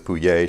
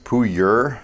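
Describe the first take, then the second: First: The surname is pronounced the French-sounding way. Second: The surname is pronounced the plain English way. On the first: "she says Pouye. She likes the, the French pronunciation" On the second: "it's actually pronounced Puyer"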